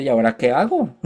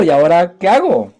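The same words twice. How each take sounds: First: Said in the usual way. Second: Higher and louder, eager and bewildered; ¿y ahora qué hago? pushed up high and loud; excited, louder question. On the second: Retold or imitated. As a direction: ask it again, bursting with new excitement.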